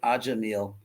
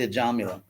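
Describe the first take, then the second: First: The name ends on the L sound. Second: The name ends with a final vowel. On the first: The speaker calls it wrong. "don't say Ajamil because it sounds like a Vedic breakfast cereal" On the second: The speaker calls it right. "it's actually a Jamila"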